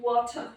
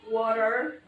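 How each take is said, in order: First: It is said in a British accent. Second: It is said in an American accent. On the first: "kalau British itu water" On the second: "Kalau American tuh water"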